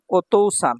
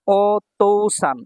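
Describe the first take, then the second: First: Said in the usual way. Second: ওতৌসান stretched very slowly; slow model word. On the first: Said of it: "normal repeat". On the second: Shown as a demonstration. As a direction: say ওতৌসান slowly so they hear each part. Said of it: "teacher models word slowly".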